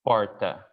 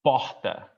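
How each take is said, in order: First: Porta with a tapped R, said slowly; São Paulo porta. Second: Porta with a breathy H-like R; Northeast porta. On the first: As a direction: porta with a light tapped R as in my city. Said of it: "here, I would say". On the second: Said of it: "And he would say". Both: Shown as a demonstration.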